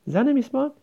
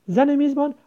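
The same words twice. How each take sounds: The two takes are said the same way.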